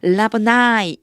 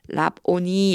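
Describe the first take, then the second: First: The word ends with a 'nye' sound. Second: The word ends with a 'nee' sound. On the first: "이 끝에 아이만 오면 아이 발음이 나요. 그래서 라보나이 이렇게 읽어 주시면 돼요" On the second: "뭐라고 써 있냐면 라보니 이렇게 돼 있는데요"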